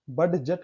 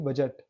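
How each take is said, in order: First: बड जट split, with the d sounded; pronounced d. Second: बजट with no d, "ba-jat"; silent d. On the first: Teacher showing students the mistake, d sounded in बड जट. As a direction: say बड जट as bud plus jet. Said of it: "कहाँ पढ़े". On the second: Teacher correcting for students, silent d in बजट. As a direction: go straight to the j in बजट. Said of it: "only बजट". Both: Shown as a demonstration.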